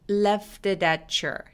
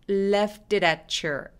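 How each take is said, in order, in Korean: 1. 단어들이 한 흐름으로 이어져 발음돼요. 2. 단어들이 한 흐름으로 이어져 발음돼요.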